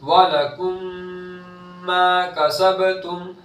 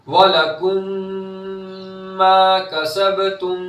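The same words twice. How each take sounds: Both takes have the same delivery.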